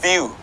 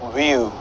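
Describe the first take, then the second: First: It begins with a lip-on-teeth V sound. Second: It begins with a rounded-lip W sound. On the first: The speaker calls it right. "We touch the upper teeth with the lower lip" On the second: The speaker calls it wrong. "That that is not how we pronounce it"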